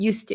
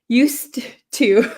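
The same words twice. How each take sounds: First: The D sound before 'to' is dropped. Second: The D sound before 'to' is pronounced. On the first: The speaker calls it right. "So we just cancel out the D sound" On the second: The speaker calls it wrong. "It's just uh, difficult to say used, used to"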